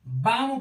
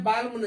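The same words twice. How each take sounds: First: बाम with long vowel straight into M; silent L. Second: बाल्म with L before M; mistaken sounded L. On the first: Teacher shows how balm is read, बाम without L. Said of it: "बाम पढ़ते हैं". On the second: Teacher warns off the misreading, बाल्म with L. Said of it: "बाल्म नहीं पढ़ते". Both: Shown as a demonstration.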